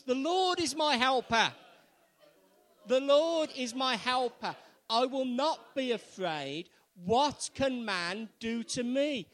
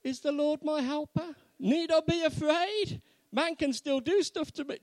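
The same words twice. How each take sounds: First: Loud, high, emphatic proclamation; rousing, forceful statement of faith; more confidence. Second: Loud, high-pitched querying; exaggerated doubt, pitched right up; mock doubtful questioning. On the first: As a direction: declare it boldly for all to repeat. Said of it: "say it with a bit more confidence". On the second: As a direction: question it as if unconvinced. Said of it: "When we say it with confidence, rather, is". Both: Shown as a demonstration.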